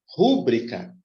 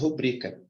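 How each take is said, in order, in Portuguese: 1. A sílaba tônica está na primeira sílaba. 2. A sílaba tônica está na segunda sílaba. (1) "Muitos pronunciam assim, ó, rúbrica, como se fosse proparoxia" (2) "Ela é paróxia. A pronúncia é rubrica"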